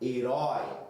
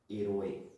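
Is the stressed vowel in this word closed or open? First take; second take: open; closed. First: The stressed o vowel is open. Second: The stressed o vowel is closed.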